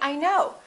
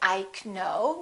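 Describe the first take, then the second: First: The K sound is silent. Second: The K sound is pronounced. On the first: The speaker calls it right. "the K is silent" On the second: The speaker calls it wrong. "We don't say I know"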